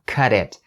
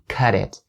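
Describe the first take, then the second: First: The t is a soft flap, like d. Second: The t is a soft flap, like d.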